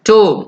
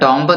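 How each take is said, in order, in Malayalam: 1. ഈ വാക്ക് m ശബ്ദത്തിൽ അവസാനിക്കുന്നു. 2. ഈ വാക്ക് b ശബ്ദത്തിൽ അവസാനിക്കുന്നു. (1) "ടൂം എന്ന് മാത്രം ഉച്ചരിച്ചാൽ മതി" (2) "ടോംബ് എന്ന് പറയരുത്"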